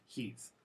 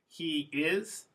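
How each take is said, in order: First: It is said as one contracted syllable. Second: It is said as two full words.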